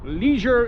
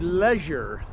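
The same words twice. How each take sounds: First: The word is said with an American pronunciation. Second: The word is said with a British pronunciation. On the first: The speaker calls it wrong. "leisure is incorrect incorrectly pronounced" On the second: The speaker calls it right. "You have to say leisure"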